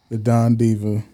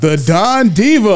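First: It is said flatly, with low energy. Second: It is said excitedly, with high energy.

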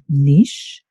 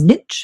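First: The word is said in a non-American way. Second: The word is said in an American way.

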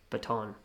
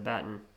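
First: It is said the American way. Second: It is said in a non-American way.

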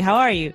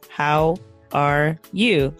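First: The words run together like one word. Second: Each word is said separately and carefully.

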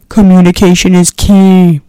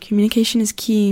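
First: It is said loudly. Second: It is said at normal volume.

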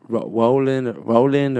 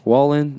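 First: The name begins with a plain R sound. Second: The name begins with a W-like sound.

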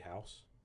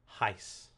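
First: The vowel is an ordinary 'ow' sound. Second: The vowel sounds like 'eye', as in heist.

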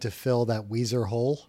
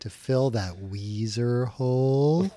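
First: The phrase is spoken at a normal pace. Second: The phrase is spoken slowly and drawn out.

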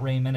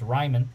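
First: The first syllable sounds like 'ray'. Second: The first syllable sounds like 'rye'. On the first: The speaker calls it wrong. "It's not Raymond" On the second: The speaker calls it right. "it's Ryman, because it's German"

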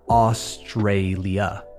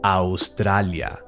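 First: Each of the three A vowels sounds different. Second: All three A vowels have the same sound. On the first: "all three of those A's are different" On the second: "All three A's sound the same"

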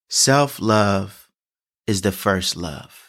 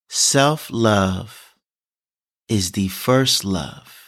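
First: The sentence is spoken at a normal pace. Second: The sentence is spoken at a slower pace.

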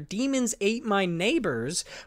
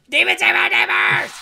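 First: The title is said flatly, without excitement. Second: The title is said excitedly, like an exclamation.

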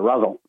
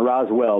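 First: The second syllable is reduced to 'al'. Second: The second syllable is a full 'well'. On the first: This is how the locals say it. The speaker calls it right. "but Rosal" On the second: This is not how the locals say it. The speaker calls it wrong. "not Roswell"

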